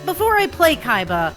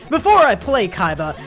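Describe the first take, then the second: First: It is said in a normal voice. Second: It is said in a deep voice.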